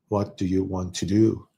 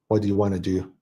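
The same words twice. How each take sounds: First: It is said in a British accent. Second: It is said in a North American accent. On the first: "and then in U K, they, people might say" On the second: "like in North America, Canada, or U S"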